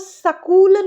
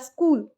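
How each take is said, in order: First: A short a vowel follows the s before k. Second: The s runs straight into k without a vowel. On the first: The speaker calls it wrong. "सकूल नहीं बोलना, स में अ का sound आएगा" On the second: The speaker calls it right. "छोटा सा स और कूल"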